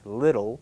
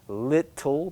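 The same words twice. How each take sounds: First: The middle t is a soft, quick flap. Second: The middle t is a clear, full t sound. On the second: "the T that you might expect"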